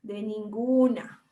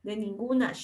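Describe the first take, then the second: First: A slow, drawn-out coastal Ecuadorian De ninguna; slow coastal Ecuadorian drawl; coastal Ecuadorian accent. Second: De ninguna as a coastal Ecuadorian actually says it, clipped and quick; lightly imitated coastal Ecuadorian accent. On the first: Retold or imitated. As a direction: imitate a coastal Ecuadorian speaker, unbothered. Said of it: "Como dicen los costeños". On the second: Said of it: "como en realidad pronuncia".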